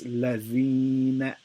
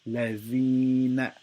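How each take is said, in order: Both takes have the same delivery.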